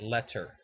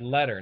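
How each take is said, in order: First: The middle consonant is a crisp T sound. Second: The middle consonant sounds like a soft D. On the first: This is how the other people claim to say it. "not letter" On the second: This is how the other people actually say it. "you said letter"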